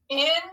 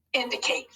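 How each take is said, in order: First: IN, DI, CATE as three separate beats; broken into syllables. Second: Said in the usual way. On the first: Shown as a demonstration. Teacher proofs the word with pupils, syllable by syllable. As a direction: say Indicate in pieces, a gap after each syllable. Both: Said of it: "Let's scoop it to proof it".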